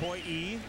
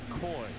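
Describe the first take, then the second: First: The name ends with an extra ee syllable. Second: The name is one syllable with no ending. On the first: The speaker calls it wrong. "That's not right" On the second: The speaker calls it right. "It's simply Coy"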